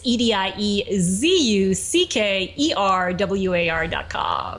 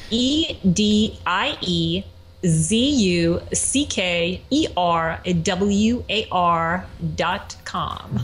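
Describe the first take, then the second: First: It is spelled out at normal speed. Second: It is spelled out slowly.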